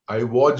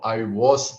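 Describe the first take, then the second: First: The word 'was' ends with a 'j' sound. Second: The word 'was' ends with an 's' sound. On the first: The speaker calls it wrong. "I was is wrong" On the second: The speaker calls it right. "I was is correct"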